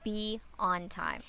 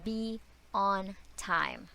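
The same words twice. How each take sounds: First: A quieter, gentle "be on time." with "on" lightly stressed; a soft, pleading repeat of the warning; soft pleading reminder. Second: Slow and firm, with ON stressed and falling; a firm, measured warning, word by word; slow emphatic reminder. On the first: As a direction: ask them kindly, slowing on "be on time.". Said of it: "So please". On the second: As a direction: say "Be on time." deliberately, leaning on "on". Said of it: "very important thing that you need to remember". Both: Shown as a demonstration.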